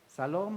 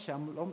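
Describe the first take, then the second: First: The word begins with a plain s sound. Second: The word begins with a sh sound. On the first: "Unos dicen que se pronuncia salom" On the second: "otros que se pronuncia shalom"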